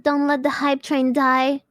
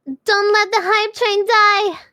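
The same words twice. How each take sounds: First: Said in the usual way. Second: Higher, louder and slower hype cry; loud slow hype call; rallying shout. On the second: Real, not acted. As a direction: belt it out to chat. Repeats line as shout.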